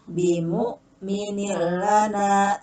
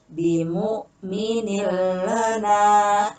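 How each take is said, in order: Both takes have the same delivery.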